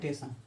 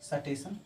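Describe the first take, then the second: First: The word starts directly with 't', no 's'. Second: A vowel separates the 's' from the 't'. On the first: Some people drop the first sound. "सिर्फ टेशन" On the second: This is how older people say it. "बुजुर्गों का सुनोगे तो कभी बोलेंगे सटेशन"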